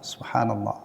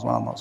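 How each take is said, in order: First: It is said slowly with every sound clear. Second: It is said very fast and slurred. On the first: The speaker calls it right. "jelas terucap kalimat sempurna" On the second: The speaker calls it wrong. "zikir tapi cepat banget. Sampai kadang-kadang tuh nggak jelas lafadznya"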